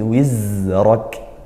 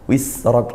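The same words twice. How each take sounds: First: The middle consonant sounds like a buzzing z. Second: The middle consonant sounds like a hissed s. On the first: The speaker calls it right. "tapi wizrak" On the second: The speaker calls it wrong. "nah ini kurang tepat"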